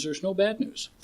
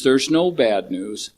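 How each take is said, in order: First: High, soft calm sage; calm master line. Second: "no" stressed, slow and measured; slow emphatic repeat. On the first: Retold or imitated. Retelling the turtle master calming the chicken, serene. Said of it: "Son, there's no terrible news". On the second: Shown as a demonstration. Preaching the lesson to the meeting, slow and deliberate. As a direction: lean on "no" slowly. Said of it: "Fun to laugh".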